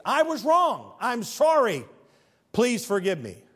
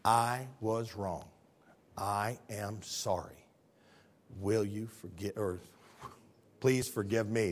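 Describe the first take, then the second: First: High, loud declared apology; proclaimed apology. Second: Very soft, low, measured apology; humble apology. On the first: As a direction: call out the apology from the pulpit. Apology declared at preaching pitch. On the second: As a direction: say it quietly, giving each word room. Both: Shown as a demonstration.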